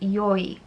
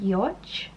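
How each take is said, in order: First: The name ends with a Y sound. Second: The name ends with an English J sound. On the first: "like you know how J's in other languages are like a Y sound" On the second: "I think you pronounce it pronounce it Yoj"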